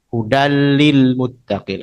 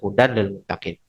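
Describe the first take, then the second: First: The n merges into the l without nasal sound. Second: The n is pronounced separately before the l. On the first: "langsung masuk, idgham masuk tanpa dengung"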